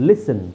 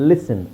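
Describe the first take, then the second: The two takes are said the same way.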